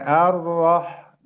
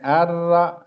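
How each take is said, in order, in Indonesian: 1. Bunyi r itu berat dan tebal. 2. Bunyi r itu ringan dan tipis. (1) "Yang sebagiannya ar-rah" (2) "bukan tebal tapi tipis ya, dibacanya tipis"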